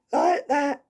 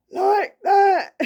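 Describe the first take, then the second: First: A lighter hint of the husky ghost, pitched higher; half-hearted husky imitation of a straining voice. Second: Much higher and louder, a husky strained ghost voice; imitating a husky male ghost struggling to talk. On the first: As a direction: sketch the struggling ghost voice again, more gently. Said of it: "kinda like husky, as I say, trying to struggle to talk". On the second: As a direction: croak it out like an old man fighting for breath. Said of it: "this is my impression of the ghost".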